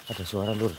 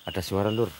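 No difference in how they are said.

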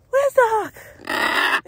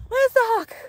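First: Where's the hawk asked very slowly, each word stretched; slow it right down, searching; drawn-out question. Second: Said in the usual way. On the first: Real, not acted. Owner scanning the sky for the hawk asks it slowly. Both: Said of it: "repeated slower".

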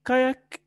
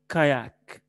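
First: Said in the usual way. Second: "كاياك" with the second vowel drawn out; lengthened vowel. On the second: Shown as a demonstration. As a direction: stretch the long "yaa" in "كاياك". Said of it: "حتى فيها تطويلة شوية".

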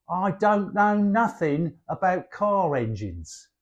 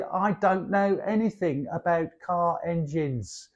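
First: Everyday Cockney, casually said; Cockney double negative. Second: Softer, more careful delivery; correct English grammar. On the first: Showing how Cockneys use double negatives, casual Cockney. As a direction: say it like a London Cockney. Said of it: "So we might say". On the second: Teacher giving the standard grammar version, softer and careful. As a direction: carefully model the textbook sentence. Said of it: "you should say". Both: Shown as a demonstration.

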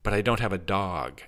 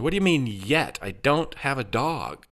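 First: Understated protest near the usual voice. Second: Higher-pitched exasperated protest; exasperated, stretched-out objection; frustrated. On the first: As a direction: object mildly, with little push. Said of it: "Adam protested". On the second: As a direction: push back, drawing out the denial. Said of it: "beside himself with frustration". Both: A narrator's reading.

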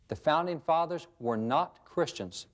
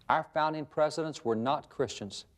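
First: Slow, leaning hard on the word not; slow down and punch not in "were not Christians"; stress on not. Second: Said in the usual way. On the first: Shown as a demonstration. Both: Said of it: "Notice the emphasis on the word not".

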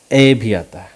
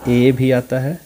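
First: "ए" opened to "ae", falling and louder; open "ae" vowel. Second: "ए" said as a long "ay"; long "ay" vowel. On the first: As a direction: punch "ए" as the vowel in "man". ("ए" को "ऐ" जैसा खुला बोलें) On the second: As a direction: show "ए" as the vowel in "way". ("ए" का लंबा उच्चारण, "वे" जैसा) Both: Shown as a demonstration. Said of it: "ये क्या क्या आता है".

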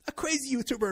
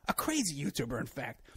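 First: Crazy YouTuber punched higher and louder; emphatic repeat. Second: Said in the usual way. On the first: Real, not acted. Ranting about a YouTuber tipping off the Coast Guard, loud emphatic repeat. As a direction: hammer crazy YouTuber home, incredulous.

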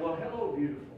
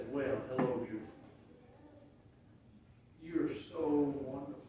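First: Husband lovingly greeting his wife at the door; delighted greeting. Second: Softer, lower, intimate hello; greeting the Bible like a beloved, softly; tender greeting. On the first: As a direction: greet her like she lights up the room. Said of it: "I said". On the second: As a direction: murmur it fondly to a loved one. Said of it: "I just say". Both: Retold or imitated.

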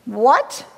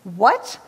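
First: Understated storybook yell of disbelief; a touch of a grandfather's outcry; mild yell. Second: Said in the usual way. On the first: A narrator's reading. Grandpa toad reacts to little toad's claim, mildly yelled. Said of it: "yelled Grandpa". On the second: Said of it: "said the monster".

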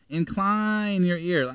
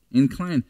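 First: Incline your ear, slow, weight on Incline; slow deliberate Incline your ear; stress on incline. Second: Incline alone, pressed and deliberate; stress on Incline. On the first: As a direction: drag out Incline your ear to make it listen. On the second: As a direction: lean on Incline as a clue word. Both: Shown as a demonstration. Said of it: "I put incline in italics".

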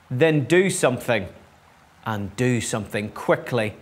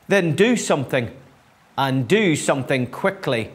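First: Restrained, firm storybook demand; understated insistence from the cow. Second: Insistent hen, dropping in pitch to finish; warning. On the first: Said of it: "she demanded". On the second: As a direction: urge them on with a mild warning. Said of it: "warned Chicken". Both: A narrator's reading.

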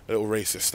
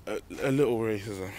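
First: Fixes it to racist, a little racist; self-correction. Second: Says racism by mistake, a little racism; slip of the tongue. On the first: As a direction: land the right word racist. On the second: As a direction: stumble into the wrong word racism. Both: Real, not acted.

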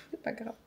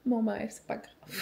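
First: Laughed under her breath, much softer; laughing whisper. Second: Said in the usual way. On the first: Real, not acted. Repeating to herself it's fine, laughing softly. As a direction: let it dissolve into a quiet laugh.

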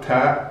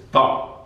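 First: Said in the usual way. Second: "ta" as an emphatic, unvoiced throaty t; "ta" pressed back in the throat. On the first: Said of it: "It's not ta". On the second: Shown as a demonstration. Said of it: "it's ta".

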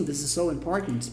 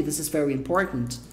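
First: "so" drawn out as the focus, low and soft; stress on SO. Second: "important" as the focus, "very" left unemphasised; stress on IMPORTANT. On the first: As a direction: put the weight on a slow "so". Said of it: "coisa mais importante da frase que é o so". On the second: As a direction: let the weight fall on "important", low-pitched. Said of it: "mais destaque da frase é o important". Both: Shown as a demonstration.

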